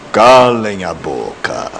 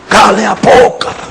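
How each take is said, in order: First: The phrase is said calmly in a put-on voice. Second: The phrase is shouted loudly. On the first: "com voz de Cid Moreira" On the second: "bradando da nuvem"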